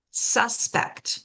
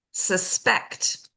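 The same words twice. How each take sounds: First: "suspect" as SUS-pect; full vowel on "SUS" in "suspect"; first-syllable stress. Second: "suspect" as sus-PECT; weak "sus", strong "PECT" in "suspect"; second-syllable stress. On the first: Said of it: "stress that first syllable". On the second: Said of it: "we stress the second syllable". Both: Shown as a demonstration.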